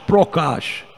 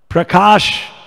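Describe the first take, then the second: First: The word is said in the Bengali way. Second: The word is said in the Sanskrit way.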